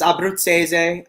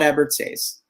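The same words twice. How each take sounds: First: The name is said with Italian pronunciation. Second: The name is said with Americanized pronunciation.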